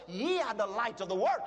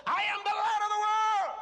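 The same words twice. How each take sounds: First: Said in the usual way. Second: High, loud, triumphant proclamation; bold declaration. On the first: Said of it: "the Bible says". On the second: Acted. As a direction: declare it with full confidence. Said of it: "How many times have you said".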